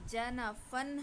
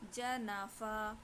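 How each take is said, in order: First: The word ends with an 'an' sound. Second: The word ends with a long 'a' sound. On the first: "जनाफ़न है" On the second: "इस पे हम वक़्फ़ करेंगे तो"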